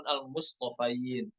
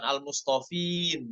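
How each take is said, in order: First: "Al-Mustafain" with a clear "fain"; correct reading. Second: "Al-Mustafin" with short "fin", no ai sound; "Al-Mustafin" clipped to "fin"; wrong reading. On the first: Teacher giving the correct pronunciation. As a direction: open the "ai" in "Al-Mustafain". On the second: Teacher showing the wrong pronunciation. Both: Shown as a demonstration.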